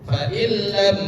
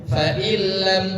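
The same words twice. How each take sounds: The two takes are said the same way.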